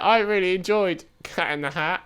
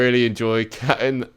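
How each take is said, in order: First: It is said in a put-on cat voice. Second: It is said in his normal voice.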